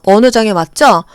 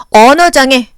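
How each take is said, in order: First: Said in the usual way. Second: 언어장애 said loud with a falling end; stressed term. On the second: Shown as a demonstration. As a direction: hit 언어장애 clearly and drop. (언어장애를 또박또박 강하게)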